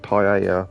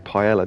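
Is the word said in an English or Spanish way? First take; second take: Spanish; English. First: It is said with a Spanish pronunciation. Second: It is said with an English pronunciation. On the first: This is how the word really goes. The speaker calls it right. "it's clearly paella" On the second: This is how people in England say it. The speaker calls it wrong. "in England we say paella"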